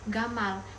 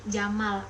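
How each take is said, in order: First: The word begins with a hard G sound. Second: The word begins with a soft J sound. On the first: This is how common Yemeni speakers say it. "orang awam Yaman ... dengan G" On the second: This is the usual standard pronunciation. "huruf jim"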